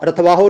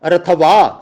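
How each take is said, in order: First: ਰਥਵਾਹੋ said "rath-vaa-ho", final "o" sounded; wrong "ho" ending. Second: ਰਥਵਾ said "rath-vaa", falling on open "aa"; no "ho" ending. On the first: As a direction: add a voiced "ho" to ਰਥਵਾਹੋ. (ਰਥਵਾਹੋ, ਅੰਤਲਾ "ਹੋ" ਬੋਲ ਕੇ) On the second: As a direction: stop ਰਥਵਾ at the long vowel. (ਰਥਵਾ, ਅੰਤ ਵਿੱਚ "ਹੋ" ਬਿਨਾਂ) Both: Shown as a demonstration. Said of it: "ਰਥਵਾਹੋ ਨਹੀਂ ਕਹਿਣਾ".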